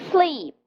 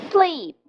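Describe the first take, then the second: Both takes have the same delivery.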